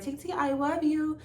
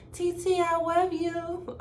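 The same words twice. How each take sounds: First: Put-on high, slow child voice; sweet little-boy voice; imitating the nephew. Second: Put-on high, slow little-child voice; a sweet small boy's voice; imitating a little kid. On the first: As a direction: say it like a small kid calling his aunt. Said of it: "my nephew just called me". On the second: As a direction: coo it like a small nephew. Nephew's sweet call imitated.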